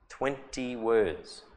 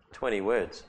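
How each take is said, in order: First: "Twenty words" drawn out slowly; slow emphasis. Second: Said in the usual way. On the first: Shown as a demonstration.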